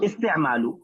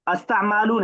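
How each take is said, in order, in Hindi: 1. पहला स्वर 'i' की ध्वनि है। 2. पहला स्वर 'a' की ध्वनि है। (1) "अलिफ पे जेर रहेगा" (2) "अस्तामालू नहीं"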